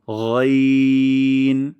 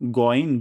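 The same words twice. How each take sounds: First: Loud, very long গইন, thick gh; heavy ghain. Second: গইন with a plain hard g, short; everyday g in গইন, no throat friction; wrong goin. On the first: Teacher giving the correct take, long throaty গইন. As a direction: hold গইন from the upper throat. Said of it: "মোটা সাউন্ডে উচ্চারণ করব". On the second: Teacher warning of the mistake, short hard-g গইন. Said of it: "গইন ভুল". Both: Shown as a demonstration.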